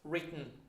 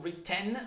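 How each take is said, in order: First: The second vowel is swallowed in the throat. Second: The second vowel is fully pronounced. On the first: The speaker calls it right. "swallow the final E sound" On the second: The speaker calls it wrong. "not written"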